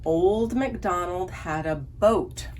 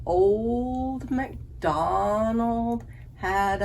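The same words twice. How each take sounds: First: Said in the usual way. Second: Put-on "Old" stretched slow to show its long O sound; slow the whole phrase to show the O in "Old"; long O drawn out. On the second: Shown as a demonstration. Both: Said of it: "So there is O".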